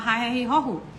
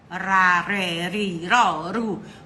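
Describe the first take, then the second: First: The R is a strong throaty sound. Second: The R is a light tap between vowels. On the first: The letter is doubled. "o irmãozinho dele acalma ele" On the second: The single letter sits between vowels. "ele fala igual a arara"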